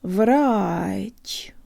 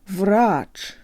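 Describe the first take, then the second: First: The final consonant is soft, with a rise. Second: The final consonant is hard, without a rise. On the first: The speaker calls it right. "If I slow it way down, you can hear the rise at the very end" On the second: The speaker calls it wrong. "Without this subtle rise, it sounds Western"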